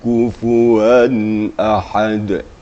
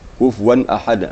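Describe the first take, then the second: First: The phrase flows at a steady, even pace. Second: The phrase is rushed and hurried through. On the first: The speaker calls it right. "Jadi datar saja" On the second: The speaker calls it wrong. "lalu dicepatkan bacaannya. Kufuwan ahad, uh, jangan seperti itu"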